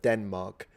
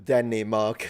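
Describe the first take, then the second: First: No extra vowel is inserted after the N. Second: An extra vowel is inserted after the N. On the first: The speaker calls it right. "instead of Denmark" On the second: The speaker calls it wrong. "I used to do Denmark"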